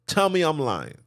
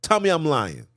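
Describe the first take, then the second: No difference in how they are said.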